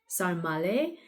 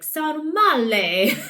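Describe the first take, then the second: First: The word is said flatly, without flair. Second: The word is said with exuberant, dramatic flair. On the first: "I'm probably saying it like with a really thick American accent" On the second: "I kind of want to say it with a flair"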